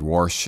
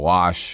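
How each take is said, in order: First: The word is said in a rural local pronunciation. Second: The word is said in a standard town pronunciation. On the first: This is how the speaker said it growing up in the country. "I said wash" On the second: This is how people in the new town said it. "instead of wash"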